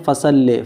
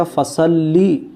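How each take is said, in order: First: "فصل" said fasalle, ending in e; mispronunciation demo. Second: "فصلی" said fasallee, ending in a long ee; correct pronunciation. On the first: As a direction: end "فصل" on an e sound instead of ee. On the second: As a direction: end "فصلی" on a held ee. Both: Shown as a demonstration. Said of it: "فصل نہیں پڑھا جائے گا".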